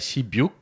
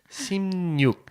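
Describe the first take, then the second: First: The middle sounds are a plain b and y. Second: The middle sounds are m and n together. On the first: The speaker calls it wrong. "a gente não pronuncia shibyuk" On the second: The speaker calls it right. "mas simnyuk"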